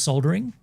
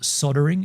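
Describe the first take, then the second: First: It is said in a non-American way. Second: It is said in an American way.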